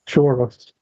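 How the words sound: The word is said in a posh, refined accent. "make it sound like I was sophisticated"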